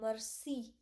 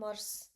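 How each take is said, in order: First: The word ends with a clear final vowel sound. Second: The word ends without the final vowel sound. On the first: The speaker calls it right. "why I am saying mercy? Like here I am pronouncing I" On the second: The speaker calls it wrong. "why I am not saying mers"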